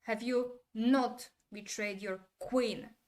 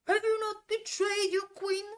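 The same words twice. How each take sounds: First: Slow, with weight on "not" and "queen"; measured question stressing "not" and "queen"; deliberate emphasis. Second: Very high, loud yell through the whole question; over-the-top imitation of an actor yelling; mock screamed acting. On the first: Retold or imitated. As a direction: lean on "not", pause, then land on "queen". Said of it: "but there is emphasis". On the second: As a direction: scream every word with equal force. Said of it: "If Tom did it, it would be like".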